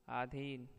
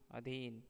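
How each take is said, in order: First: अधीन with a long opening "aa"; अधीन said as "aa-dheen"; wrong pronunciation. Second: Said in the usual way. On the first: Shown as a demonstration. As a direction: stretch the first vowel, "aadheen" for अधीन. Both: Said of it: "अशुद्ध, शुद्ध".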